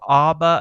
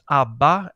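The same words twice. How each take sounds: First: It is said with an American pronunciation. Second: It is said with a Swedish pronunciation. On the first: "as you say in the United States" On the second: "as we say in Sweden"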